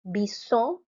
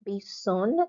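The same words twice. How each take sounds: First: "Bison" ending on an open nasal vowel, no N; masculine French pronunciation. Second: "bison" with the final N sounded; feminine French pronunciation. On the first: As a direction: say "Bison" as bee-ZON with the final N left silent. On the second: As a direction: say "bison" as bee-ZONN, closing on a clear N. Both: Shown as a demonstration.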